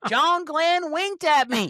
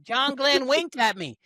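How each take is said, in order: First: Very high, slow swooning drawl; Southern accent. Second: Higher, slow Southern twang; Southern accent. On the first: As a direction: stretch it out, swooning Southern belle. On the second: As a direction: drawl it out like a starstruck belle. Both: Pretend. Playful mock Southern astronaut bit.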